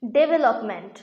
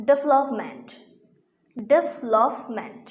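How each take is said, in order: First: ডেভেলপমেন্ট with four syllables, 'de-be-lop-ment'; common mispronunciation. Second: ডেভেলপমেন্ট in three syllables, 'dev-lop-ment'; corrected pronunciation. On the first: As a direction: say ডেভেলপমেন্ট with a full second vowel, 'debelopment'. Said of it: "ডেভেলপমেন্ট উচ্চারণটি ভুল". (ডেভেলপমেন্ট-এর ভুল উচ্চারণ, 'ডেবেলপমেন্ট') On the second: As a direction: drop the middle vowel of ডেভেলপমেন্ট: 'devlopment'. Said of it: "এর সঠিক উচ্চারণ হচ্ছে". (ডেভেলপমেন্ট-এর শুদ্ধ উচ্চারণ, 'ডেভ-লপ-মেন্ট') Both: Shown as a demonstration.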